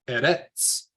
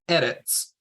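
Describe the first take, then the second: First: The stress is on the last syllable. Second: The stress is on the first syllable. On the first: The speaker calls it wrong. "the wrong way to say it is edits. That edits at the at the back of the word" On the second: The speaker calls it right. "the first way um, that's correct is edits. So we're putting the stress edits at the front"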